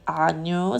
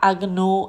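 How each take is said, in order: First: The g and n merge into one sound. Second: The g and n are sounded separately. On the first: The speaker calls it right. "mais agneau" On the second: The speaker calls it wrong. "pas agneau"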